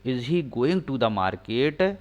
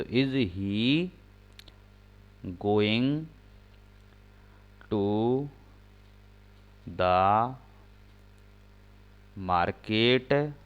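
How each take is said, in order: First: Whole sentence read slowly; slow read-back; slow full read. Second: Slow, each word set apart by pauses; slow dictation pace; dictating word by word. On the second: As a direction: spell out the sentence for writing. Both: Shown as a demonstration. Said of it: "सहायक क्रिया बाहर हो जाएगी".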